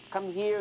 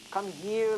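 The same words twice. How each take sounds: First: Higher, louder rising snake call; hissing snake. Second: Higher, louder coaxing snake call; hissing snake. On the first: Snake repeats his call to the lamb, rising and coaxing. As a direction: call again with a lilting coax. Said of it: "he repeated". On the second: Snake coaxes the little lamb closer, lightly hissing. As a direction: hiss it out like a tempting snake. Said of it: "He started to hiss". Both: Acted.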